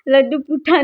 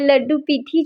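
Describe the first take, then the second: First: The second word is said as 'putha'. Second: The second word is said as 'peethi'. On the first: The speaker calls it wrong. "नहीं" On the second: The speaker calls it right. "अक्सर ये pronounce जो है वो गलत हो जाता है"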